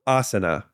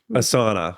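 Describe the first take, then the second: First: It does not sound like the words a sauna. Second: It sounds like the English words a sauna. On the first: The speaker calls it right. "It's not. It's asana" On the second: The speaker calls it wrong. "often mispronounced as asana"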